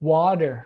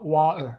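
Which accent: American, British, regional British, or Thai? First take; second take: American; regional British. First: It is said with an American accent. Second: It is said with a regional British accent. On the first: "คนอเมริกาครับ" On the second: "สำเนียงของคนอังกฤษ"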